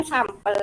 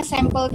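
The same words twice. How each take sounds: First: "sampel" pronounced SAM-pel, open first vowel. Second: "sampel" imitated as SEM-pel; sampel as sempel. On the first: Shown as a demonstration. Participant insisting on the reading, sampel with ah. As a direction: say "sampel" with ah, as written. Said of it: "Kan bacanya sampel". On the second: Participant quoting the other mothers, sampel as SEM-pel. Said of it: "Ibu-ibu tadi bilangnya sampel terus".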